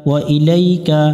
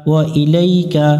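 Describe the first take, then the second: The two takes are said the same way.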